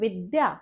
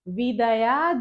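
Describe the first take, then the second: First: The d and y are joined as one cluster. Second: The d and y are split by a vowel. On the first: The speaker calls it right. "यह मुझे कहना है विद्या" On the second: The speaker calls it wrong. "विदया ददाति विनयम नहीं कहना है मुझे"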